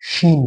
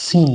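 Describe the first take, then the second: First: শিন with a thicker sh sound. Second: সিন with a thin, fine s. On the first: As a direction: broaden the first sound of শিন into a full sh. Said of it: "এটা উচ্চারণ একটু মোটা হবে". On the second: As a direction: keep the s of সিন narrow, not sh. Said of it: "একটু সরু মোটার ব্যাপার আছে". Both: Shown as a demonstration.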